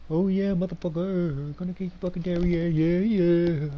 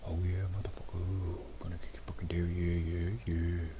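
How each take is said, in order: First: Put-on loud drunken taunt, slurred; belligerent drunk. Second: Put-on whispered drunken taunt; whispering. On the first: Same chant said twice. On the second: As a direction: hiss the taunt under your breath. Same chant whispered.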